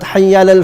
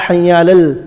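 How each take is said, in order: First: The ayn sound before 'alal' is dropped. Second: The ayn sound before 'alal' is clearly pronounced. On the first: The speaker calls it wrong. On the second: The speaker calls it right. "Make sure the ayn comes out clearly"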